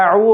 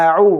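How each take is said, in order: First: আউ run together as one sound; wrong joined au. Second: আউ with hamza then ain, two clear parts; correct au. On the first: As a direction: show the wrong blended আউ. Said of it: "আউ বলা যাবে না". (ভুলভাবে মিশিয়ে আউ) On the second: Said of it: "বলতে হবে আউ". (হামজা ও আইন আলাদা করে আউ) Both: Shown as a demonstration.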